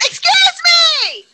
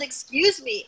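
First: It is yelled loudly and shrilly. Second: It is said quietly and plainly.

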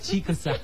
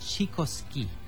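First: The name ends with a 'sigh' sound. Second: The name ends with a 'ski' sound. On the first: The speaker calls it right. "Not Chico-sai" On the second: The speaker calls it wrong. "I pronounced the band's name as Chikoski"

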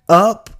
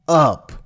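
First: Said hesitantly, like an unsure question. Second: Said firmly, like a confident statement. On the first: The speaker doubts the answer. The speaker calls it wrong. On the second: The speaker is certain of the answer. The speaker calls it right.

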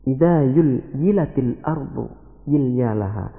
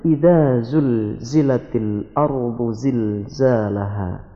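First: The z sounds are replaced by another sound. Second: The z sounds are pronounced as a clear z. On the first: This reflects a regional dialect's influence. The speaker calls it wrong. "tidak bisa menyebut huruf za" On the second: This is the standard recitation. The speaker calls it right. "Padahal sebenarnya"

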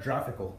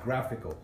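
First: The word begins with a soft J sound. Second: The word begins with a hard G sound. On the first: The speaker calls it wrong. "It's not graphical" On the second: The speaker calls it right. "So it's a hard G"

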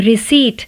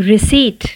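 No difference in how they are said.

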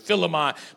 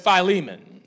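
First: The I and E vowels sound short. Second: The I and E vowels sound long. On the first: The speaker calls it wrong. "one of the books of the Bible that I just butcher" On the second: The speaker calls it right. "put a long I sound and a long E sound on"

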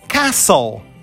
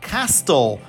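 First: No T sound is pronounced in the middle. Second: A T sound is pronounced in the middle. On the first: The speaker calls it right. "Vocês vão tirar a letra T e vai virar castle" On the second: The speaker calls it wrong. "Vocês têm uma vontade louca de falar castle"

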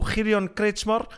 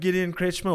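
First: The name is said with a German sound. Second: The name is said with an English sound. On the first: The speaker calls it right. "but it's getting there" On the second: The speaker calls it wrong. "that first sounded like a little bit English"

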